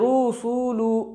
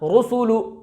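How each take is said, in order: First: The vowels are stretched out long. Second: The vowels are kept short and quick. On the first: The speaker calls it wrong. "थोड़ा भी खींच दिया तो भी ये गलत" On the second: The speaker calls it right. "इसका सही तरीका"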